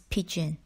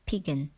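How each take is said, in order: First: The middle consonant is a soft j sound. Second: The middle consonant is a hard g sound. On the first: The speaker calls it right. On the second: The speaker calls it wrong.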